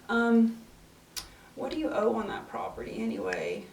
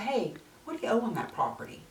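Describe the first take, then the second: First: It sounds hesitant and unsure. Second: It sounds direct and confident.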